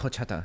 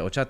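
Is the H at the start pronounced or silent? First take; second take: pronounced; silent. First: The H at the start is pronounced. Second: The H at the start is silent. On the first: The speaker calls it wrong. "you're like horchata" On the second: The speaker calls it right. "The H is silent"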